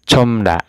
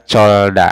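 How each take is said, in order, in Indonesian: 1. Hanya m yang ada sebelum da. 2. Hanya l yang ada sebelum da. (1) "Dibacanya itu comda ya" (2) "tidak dibaca colda"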